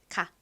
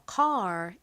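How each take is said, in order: First: The word ends without an r sound. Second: The word ends with an r sound. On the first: "r에 이 리을 받침 빼고 보통 카 이렇게 표기하죠" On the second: "미국식 발음으로는 이 r의 소리를 살려서"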